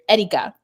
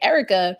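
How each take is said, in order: First: The name is said with a non-American pronunciation. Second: The name is said with an American pronunciation. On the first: This is how the family says it. "when I'm with my family" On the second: This is how people outside the family say it. "an Americanized version of my name"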